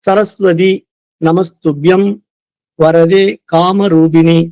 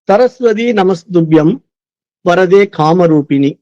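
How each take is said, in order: First: The verse is recited slowly and patiently. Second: The verse is recited quickly. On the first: The reader is a beginner. "பொறுமையா" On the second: The reader already knows the verse well. "இப்ப நானு வேகமா படிக்கிறேன்"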